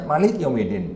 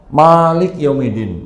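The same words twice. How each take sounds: First: The first vowel of Malik is kept short. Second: The first vowel of Malik is held long. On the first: It means king. "pendek Maliknya" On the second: It means ruler. "maknya panjang"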